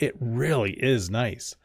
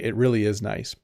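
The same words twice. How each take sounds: First: It is said with strong, forceful emphasis. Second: It is said plainly, without extra emphasis.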